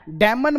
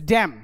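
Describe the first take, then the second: First: डैमन in two syllables, N sounded; wrong pronunciation demo. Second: डैम ending on M, one syllable; silent N. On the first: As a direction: say the final N in डैमन. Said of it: "डैमन मत बोलना". (डैमन में न भी बोलें) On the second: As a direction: drop the N, close on M in डैम. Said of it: "एन silent हो जाता है". (डैम में न चुप रखें) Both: Shown as a demonstration.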